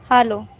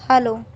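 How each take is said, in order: Both takes have the same delivery.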